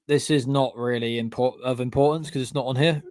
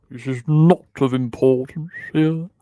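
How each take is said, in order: First: Said in the usual way. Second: Louder, theatrical mock character voice; silly put-on voice. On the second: Dismissing James as not on the list, silly voice. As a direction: repeat it as a hammed-up catchphrase. Repeats own phrase in silly voice.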